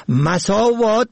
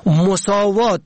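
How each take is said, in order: First: مساوات said "masaavaat", open a first; fatha on first letter. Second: مساوات said "mosaavaat", rounded o first; damma on first letter. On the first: Teaching the word for evils, short a vowel. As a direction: say مساوات as "ma-saa-vaat". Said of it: "به فتح اول". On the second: Teaching the word for equality, short o vowel. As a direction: say مساوات as "mo-saa-vaat". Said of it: "به ضم اول". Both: Shown as a demonstration.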